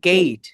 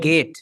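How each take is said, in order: First: The vowel glides from e to i. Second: The vowel is a plain, flat e. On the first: The speaker calls it right. "এটা বলবো গেট" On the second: The speaker calls it wrong. "অনেকে বলে গেট"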